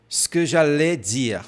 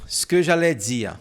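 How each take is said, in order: Both takes have the same delivery.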